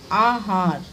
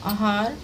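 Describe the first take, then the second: First: आहार with a long opening aa, falling; correct long vowel. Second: आहार starting with short a; wrong short vowel. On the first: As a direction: stretch both vowels, AA-HAAR, in आहार. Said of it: "फिर शुद्ध रूप क्या है". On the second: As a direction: say आहार as a-haar, rising. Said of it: "इनका अशुद्ध रूप क्या है". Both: Shown as a demonstration.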